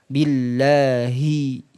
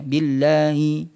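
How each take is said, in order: First: The h sound is clear, from deep in the throat. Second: The h sound is faint and unclear. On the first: The speaker calls it right. "makhrajnya sama seperti hamzah, paling jauh dia. Tenggorokan bagian bawah" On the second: The speaker calls it wrong. "Haknya ini nggak dijelaskan, cuma hanya seperti ini bacanya"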